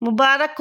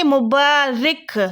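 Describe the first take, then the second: First: Said in the usual way. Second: مبارک as Arabic mubarik, with an i sound in the last syllable; Arabic pronunciation. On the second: Shown as a demonstration. Teacher contrasting with Urdu, slow Arabic mubarik. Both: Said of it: "لیکن یہ ہے مبارک۔".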